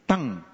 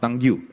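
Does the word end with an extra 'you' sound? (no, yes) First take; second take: no; yes. First: The word ends without any extra vowel sound. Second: The word ends with an extra 'you' sound. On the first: The speaker calls it right. "It's tongue. Because when the word ends with a U-E, it's a silent U-E" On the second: The speaker calls it wrong. "no, it's not tongue you"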